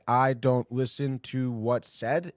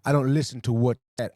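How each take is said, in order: First: Slow, disbelieving echo of the quote; slow incredulous repeat. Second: Said in the usual way. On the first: Shown as a demonstration. Host mocking a ballplayer's quote, slow and disbelieving. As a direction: repeat it slowly like you can't believe it. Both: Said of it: "Is that the declaration?".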